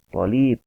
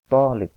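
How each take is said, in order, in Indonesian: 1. Vokal setelah l dipanjangkan. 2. Vokal setelah t dipanjangkan. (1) "Jangan sampai salah membaca yang dua harakat lamnya" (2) "Yang betul adalah"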